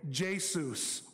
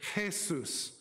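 First: The word begins with an English J sound. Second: The word begins without a J sound. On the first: The speaker calls it wrong. "they don't say Jesus" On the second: The speaker calls it right. "they say Jesus"

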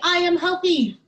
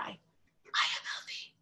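First: The words are said in a normal, full voice. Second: The words are said in a soft, quiet voice. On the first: "And we say" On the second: "Can we say it in a quiet voice?"

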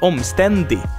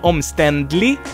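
First: The word is said without an L sound. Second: The word is said with an L sound. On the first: The speaker calls it wrong. "a lot of people would say omständig without the L there" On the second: The speaker calls it right. "So omständlig is the word"

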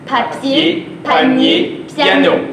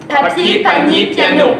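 First: The words are spoken at a slow pace. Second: The words are spoken at a fast pace. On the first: "Une autre fois lentement" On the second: "plus rapidement"

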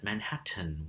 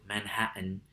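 First: The second T is fully pronounced. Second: The second T is a glottal stop. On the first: The speaker is probably from out of town. "with an actual frontal T sound" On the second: The speaker is a local. "I have friends from New York City who would pronounce the name of their borough Manhattan"

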